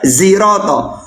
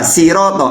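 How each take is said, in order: First: The word begins with a z sound. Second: The word begins with an s sound. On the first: "atau za ziroto" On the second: "pakai sin bisa siroto"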